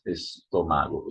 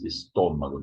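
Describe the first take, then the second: First: "estômago" wrongly stressed on MA; misplaced stress. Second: "estômago" stressed on TÔ; correct stress. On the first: Teacher showing students what to avoid, misplaced stress. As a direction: say "estômago" as "estoMAgo". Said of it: "not estômago". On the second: Teacher correcting the stomach word, correct stress. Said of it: "There's an accent there". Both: Shown as a demonstration.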